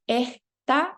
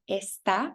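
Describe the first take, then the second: First: The s becomes a slight h sound. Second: The s sound is fully pronounced.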